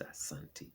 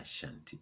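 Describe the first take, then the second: First: The middle consonant is a plain 's' sound. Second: The middle consonant is an 'sh' sound. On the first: This is the people's own form of the name. The speaker calls it right. "It's Asante" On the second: Outsiders imposed this form of the name. The speaker calls it wrong. "It's not Ashanti"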